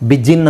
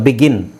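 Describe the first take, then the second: First: The middle consonant is a soft j sound. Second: The middle consonant is a hard g sound. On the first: The speaker calls it wrong. "ಬಿಜಿನ್ ಅಂತ ಹೇಳಲ್ಲ" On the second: The speaker calls it right.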